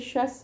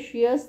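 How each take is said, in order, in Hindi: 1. इस अंत को एक अक्षर में बोला जाता है, 'shus'। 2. इस अंत को दो अक्षरों में बोला जाता है, 'shee-us'। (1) "ये शस है, इसका साउंड है शस" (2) "ये शियस नहीं है"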